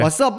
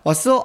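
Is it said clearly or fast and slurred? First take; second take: fast; clearly. First: It is said fast and slurred. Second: It is said clearly and distinctly.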